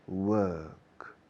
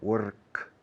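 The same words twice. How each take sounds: First: The R is silent after the vowel. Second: The R is tapped, Spanish-style. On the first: "Británicos" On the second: "prefiero hasta la R española"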